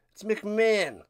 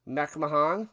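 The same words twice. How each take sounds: First: "McMahon" said short as "mick-MAN", two syllables; announcer's pronunciation. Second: "McMahon" said in three syllables as "mack-muh-HON"; own pronunciation. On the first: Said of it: "Did he say McMahon?". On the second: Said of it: "pronounce things however you want". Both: Shown as a demonstration.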